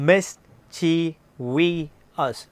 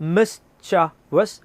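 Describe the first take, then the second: First: The word is said with four syllables. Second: The word is said with three syllables. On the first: The speaker calls it wrong. "വി pronounce it as മിസ്ചീവിയസ്" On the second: The speaker calls it right. "But the correct British English pronunciation is മിസ്ചവസ്"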